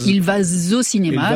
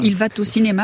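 First: A soft gliding sound links va to au. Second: A T sound links va to au. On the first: "un velours, ça glisse" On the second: "C'est une liaison avec un T mal à propos"

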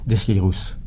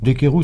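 First: The name is said in a regional way. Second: The name is said in a Parisian way. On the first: It sounds very local to the region. "ce qui fait très régional" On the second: It sounds more intellectual. "ça fait plus parisien"

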